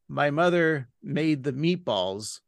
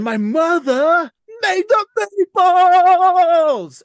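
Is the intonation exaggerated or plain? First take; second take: plain; exaggerated. First: It is said with ordinary, plain intonation. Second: It is said with an odd, exaggerated intonation. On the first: "the line would be like" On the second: "but he would say"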